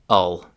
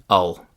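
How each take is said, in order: Both takes have the same delivery.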